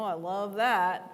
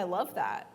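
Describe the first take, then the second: First: The tone sounds mocking and insincere. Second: The tone sounds sincere and warm. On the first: The speaker does not actually like it. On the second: The speaker truly likes it.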